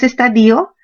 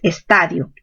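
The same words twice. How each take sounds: First: The stress falls on the syllable di. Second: The stress falls on the syllable ta. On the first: The speaker calls it wrong. "Los que piensan que lo correcto es estadio, no es así" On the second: The speaker calls it right. "Lo correcto es estadio"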